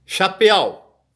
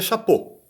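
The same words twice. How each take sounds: First: "Chapéu" read letter for letter, ending in e-a-u; read as spelt. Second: "chapeau" said the French way, ending in "o"; French pronunciation. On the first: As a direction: sound out every written vowel of "Chapéu". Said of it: "Escreve de um jeito, se pronuncia do outro". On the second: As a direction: say "chapeau" as sha-PO. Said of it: "pronuncia chapeau". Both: Shown as a demonstration.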